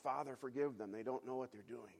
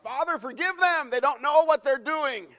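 First: Quietly pleading, held back; soft cry of prayer. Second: Much higher, loud desperate cry; anguished shout. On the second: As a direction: scream the prayer from the cross. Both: Retold or imitated. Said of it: "Jesus is crying out".

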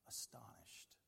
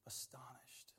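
First: Hushed whispered answer. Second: Soft unvoiced repeat; whisper. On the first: Acted. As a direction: breathe it out in awe. Answers own question in whisper. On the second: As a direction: whisper it again in wonder.

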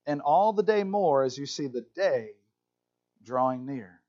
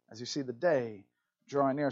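First: Said in the usual way. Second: Quiet lower repeat of "the day drawing near"; soft echo. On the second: Shown as a demonstration. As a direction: let it fall away softly, like an echo. Echoes the verse, much softer.

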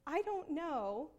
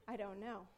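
First: Slow, drawn-out admission; convicted. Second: Low, soft, brushing it off; muted retold reply. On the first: Retold or imitated. Convicted mom answering her daughter, slow. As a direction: stretch it out slowly, uncertain. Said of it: "I was so convicted". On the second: Mom busy cooking, answering daughter quietly. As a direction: answer under your voice, lowered. Terse answer while stewing.

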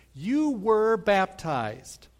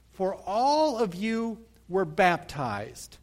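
First: "You" drawn out slowly and leaned on; "You" को धीमे और ज़ोर से कहो; stress on you. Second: "all" lifted and slowed, the rest read out; पढ़ते हुए "all" पर ज़ोर; stress on all. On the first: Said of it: "That is a reference to timing". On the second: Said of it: "The key word is all". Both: Shown as a demonstration.

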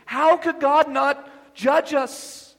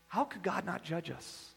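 First: Slow, louder and higher, each word hammered; thundered question. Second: Soft, low, musing question; quiet question. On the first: Preacher thundering judgment at the congregation, slow and loud. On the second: Preacher musing quietly to the congregation, soft and low. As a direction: ask it softly to yourself. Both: Acted.

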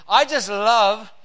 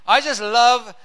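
No difference in how they are said.

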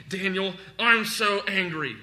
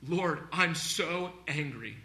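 First: Louder, higher acted venting; mock angry outburst. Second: Slow, restrained acted anger; anguished complaint to God. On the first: Preacher acting a man venting alone in his room, loud mock anger. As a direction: vent loudly as if imitating an angry man. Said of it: "He's not just sitting in his room by himself". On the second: Preacher acting Job lamenting toward God, slow mild angry plea. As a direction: complain slowly upward in prayer, mildly angry. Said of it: "and he's complaining upward".

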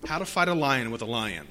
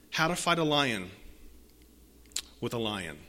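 First: Said in the usual way. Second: "How to fight a lion" then a long pause, "with a lion" much softer and lower; slow dramatic repeat. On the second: Shown as a demonstration. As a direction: drop the voice hard on "with a lion" after a pause.

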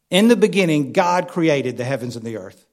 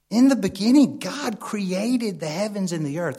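First: Proclaimed loud, then settling; scripture quote. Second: Scripture quote. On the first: Preacher proclaiming Genesis to the church, ringing. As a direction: declaim the opening verse of Genesis. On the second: Preacher quotes Genesis again, hushed. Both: Acted.

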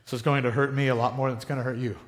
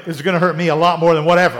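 First: Parent cliché. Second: Repeats the line louder, scoffing; mocking scorn. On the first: Retold or imitated. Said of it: "I sound like my parents". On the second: Mocks the parents' line to the congregation, scoffing. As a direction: sneer at the old saying. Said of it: "Ah, baloney".

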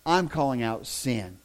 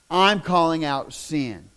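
First: Said in the usual way. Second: I'm calling out sin slow and louder, each word weighted; emphatic restatement. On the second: Shown as a demonstration. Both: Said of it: "repeated with emphasis".

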